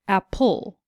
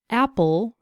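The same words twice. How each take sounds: First: The stress is on the second syllable. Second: The stress is on the first syllable.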